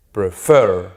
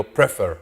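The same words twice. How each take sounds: First: "Prefer" as pre-FER, FER louder; stress on the final syllable. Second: "prefer" as PRE-fer, second syllable dropped; wrong first-syllable stress. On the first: Teacher showing students where the force falls, final-syllable stress. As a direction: lean hard on FER in "Prefer". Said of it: "Al final". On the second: Teacher showing what he doesn't say, first-syllable stress. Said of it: "Yo no digo prefer". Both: Shown as a demonstration.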